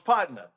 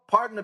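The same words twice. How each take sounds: First: It sounds warm and genuine. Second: It sounds strained and forced.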